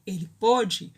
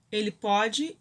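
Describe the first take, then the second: First: "pôde" with a closed o, falling. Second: "pode" with an open o, rising. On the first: Teacher contrasting pôde with pode, closed o. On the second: Teacher contrasting pode with pôde, open o. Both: Shown as a demonstration. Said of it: "quando for ele pôde".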